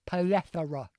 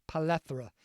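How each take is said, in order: First: "plethora" with the tongue stuck out for th; exaggerated th in the middle of "plethora". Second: Said in the usual way. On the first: Shown as a demonstration. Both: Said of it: "You gotta stick your tongue out".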